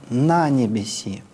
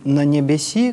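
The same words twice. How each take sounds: First: The first syllable 'na' is stressed. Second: The first syllable 'na' is unstressed. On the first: The speaker calls it right. "На ударном слоге «на»... В старообрядческой традиции вот так" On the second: The speaker calls it wrong. "вот не «на небеси», как мы привыкли читать"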